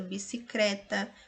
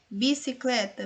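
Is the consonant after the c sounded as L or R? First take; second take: R; L. First: The consonant after the c is sounded as R. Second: The consonant after the c is sounded as L. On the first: This is an informal spoken variant. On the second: This is the standard form.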